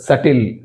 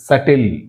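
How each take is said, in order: The two takes are said the same way.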